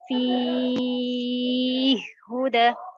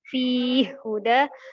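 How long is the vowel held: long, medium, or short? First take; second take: long; short. First: The long vowel is held for six counts. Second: The long vowel is held for two counts. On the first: "atul memiliki enam harokat" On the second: "Yang pertama qasr"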